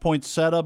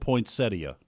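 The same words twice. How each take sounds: First: The word is said in its everyday reduced form. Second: The word is said fully, as it is written. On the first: "It's pronounced poinsettia" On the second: "but it's spelled poinsettia"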